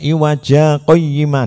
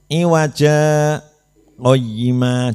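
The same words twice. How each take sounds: First: The words run together with no pause. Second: A brief pause follows the first word. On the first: The speaker calls it wrong. "Dibaca iwaja qayyima tidak boleh" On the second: The speaker calls it right. "iwaja ini berhentinya dihitung dua harokat"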